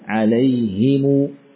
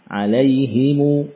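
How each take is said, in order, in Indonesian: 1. Vokal i setelah h, m diikuti u panjang. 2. Vokal i setelah h, m diikuti u panjang.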